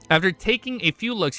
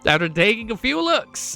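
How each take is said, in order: First: It is said in his normal accent. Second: It is said in a country accent.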